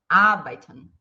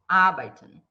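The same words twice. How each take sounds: No difference in how they are said.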